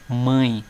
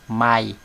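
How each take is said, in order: First: The vowel is nasal, sounding through the nose. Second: The vowel is oral, with no nasal sound. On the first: The speaker calls it right. "quando nós colocamos o tio, o som do A sai pelo nariz" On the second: The speaker calls it wrong. "o som do A ele se torna um som oral, ou seja, o som sai pela boca"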